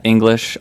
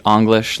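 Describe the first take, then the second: First: Said in the usual way. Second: English said with an open "ah" first vowel, "Ahnglish"; wordplay on English. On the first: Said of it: "like a play on English". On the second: Shown as a demonstration. Artist explains his name as a play on English, first vowel opened to "ah". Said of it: "it was kinda to play with that".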